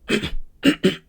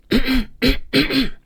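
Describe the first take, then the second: First: Rough throaty cough with a grunt; cough demo. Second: High, bright louder cough; higher, brighter cough. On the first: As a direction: cough like a car motor trying to start. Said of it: "Sounds like a car motor trying to get started". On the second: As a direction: lift the cough up and make it bright. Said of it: "it's a little bit higher for me". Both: Shown as a demonstration.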